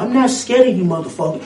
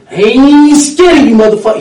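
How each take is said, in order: First: Said in the usual way. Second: Bernie's defiant shout. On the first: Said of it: "you letting up". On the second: Retold or imitated. Mimicking Bernie yelling at the crowd, loud defiance. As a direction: shout it back like you mean it. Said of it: "what he'll tell you too".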